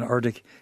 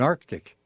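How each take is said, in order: First: The first c sound is left out. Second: The first c sound is clearly pronounced. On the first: The speaker calls it wrong. "Because I'm not doing that, am I?" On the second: The speaker calls it right. "All right, I'll say it again"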